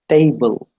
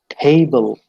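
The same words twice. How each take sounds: First: The first consonant has no puff of air. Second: The first consonant has a puff of air.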